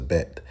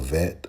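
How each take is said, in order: First: The word begins with a B sound. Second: The word begins with a V sound. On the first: "we use a bet" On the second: "We don't use a vet"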